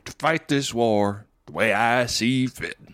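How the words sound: It is spoken with a slow military drawl. This is how the character talks in this episode. "more like military drawl in his voice"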